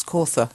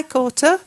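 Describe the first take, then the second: First: "Kautha" as KOR-thuh; "Kautha" corrected to a th sound in the middle. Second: "Kautha" as KOR-tuh; "Kautha" misread with a hard T in the middle. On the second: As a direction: say "Kautha" with a plain "t" for "th". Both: Shown as a demonstration. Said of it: "It's Kautha, Zeb".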